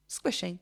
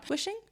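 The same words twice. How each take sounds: First: Said in the usual way. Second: Higher, softer doubtful question on Squishing; puzzled questioning. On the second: Real, not acted. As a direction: question the word Squishing with a rising tone. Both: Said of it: "I haven't said that word in a long time".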